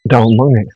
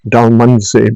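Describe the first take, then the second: First: The name ends with an 'ngi' sound. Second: The name ends with a 'sey' sound. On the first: This is the proper local pronunciation. The speaker calls it right. "correct pronunciation is Dalmungi" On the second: This is how many people say it. The speaker calls it wrong. "A lot of people call it Dalmunsey"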